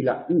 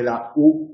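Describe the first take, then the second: First: "U" as French ü, tongue forward and lips rounded; French front rounded vowel on "U". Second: Said in the usual way. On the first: Shown as a demonstration. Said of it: "el abocinamiento sirve para distinguir". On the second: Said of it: "a diferencia del francés".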